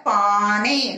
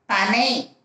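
First: பானை with the "aa" held long; long vowel. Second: பனை with a short first "a"; short vowel. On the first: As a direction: stretch the first vowel of பானை. (பானை நெடிலாக, நீட்டி) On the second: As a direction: keep the opening of பனை brief. (பனை குறிலாக, குறுக்கி) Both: Shown as a demonstration. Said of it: "நீங்க பானை எழுதணும்".

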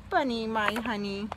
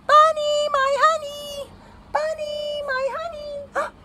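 First: Soft, low murmur; lower, affectionate tone; tender endearment. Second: High singsong call, fading from loud to distant; mommy calling. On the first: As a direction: say it fondly and gently. Storyteller tenderly repeats the endearment. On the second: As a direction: call far and wide for your lost little one. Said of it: "He hears his mommy calling". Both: A narrator's reading.

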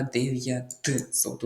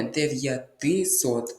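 First: Дев'ятсот said slowly, Т running straight into С; correct form without И. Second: Дев'ятисот spelled out slowly with an extra И after дев'ят; wrong form дев'ятисот. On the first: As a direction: draw out дев'ятсот with no И in the middle. (повільно дев'ятсот, без И посередині) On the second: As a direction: slowly sound the И in the middle of дев'ятисот. (повільно дев'ятисот, з чітким И посередині) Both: Shown as a demonstration. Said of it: "і не дев'ятисот".

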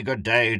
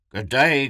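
First: Second call easing down as he nears; calling, a bit less. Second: Higher, louder hearty greeting calling "day". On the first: The warden nearing the hunters, calling a little less. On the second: The warden greeting the seated trio from afar, calling out. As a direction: call it across the clearing, big and bright. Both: A narrator's reading. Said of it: "the warden called".

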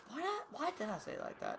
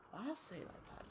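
First: Said in the usual way. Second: Very soft, barely voiced mutter; muttered to self. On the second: Real, not acted. Streamer mutters about his own odd wording, very soft. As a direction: mumble it to yourself in disbelief.

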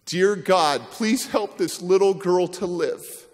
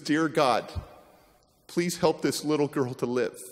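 First: Pleading prayer. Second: Quiet prayer. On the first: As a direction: plead it out slowly to God. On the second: Wife praying softly over the drowned girl. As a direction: pray it quietly over her. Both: Retold or imitated. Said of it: "and says".

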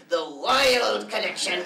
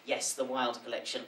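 First: Slow, grand, drawn out; dramatic announcement. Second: Said in the usual way. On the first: Acted. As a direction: announce it like a spooky title. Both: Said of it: "Why are you saying it like that?".

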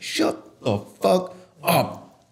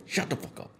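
First: Very slow, higher, word-by-word command; acted anger. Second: Whispered angry command; acted anger. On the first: Showing how to silence advice-givers, slow emphatic anger. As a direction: punch out each word angrily, spaced apart. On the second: Ending an acted tirade at advice-givers, in an angry whisper. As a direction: drop to a fierce whisper. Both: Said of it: "yeah, you get angry".

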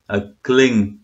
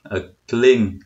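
The two takes are said the same way.

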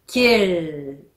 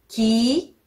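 First: キル falling onto a long English-style L; final L sound. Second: Said in the usual way. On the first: Shown as a demonstration. Teacher repeats for learners, held final L. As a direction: close キル on L without a u. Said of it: "Lをつけると". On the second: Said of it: "パッチムがない時は".

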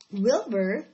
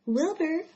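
First: Said in the usual way. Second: High, loud call; raised, carrying call. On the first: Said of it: "who'd been asleep in the straw". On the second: A narrator's reading. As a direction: call the name to rouse a sleeper. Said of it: "she called".

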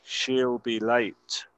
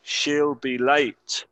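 First: Said in the usual way. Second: Very slow model. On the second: Shown as a demonstration. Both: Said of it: "escuchar la pronunciación".

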